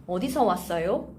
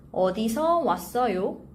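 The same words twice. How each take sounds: First: "어디서 왔어요?" run together quickly; natural fast phrase. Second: Careful model phrase. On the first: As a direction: say "어디서 왔어요?" at fluent conversational speed. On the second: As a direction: say "어디서 왔어요?" carefully for learners. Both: Shown as a demonstration. Teacher models phrase slowly, then fluently.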